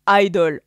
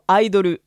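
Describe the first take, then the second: First: It is pronounced with English sounds. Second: It is pronounced with Japanese sounds. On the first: "en anglais" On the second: "en japonais"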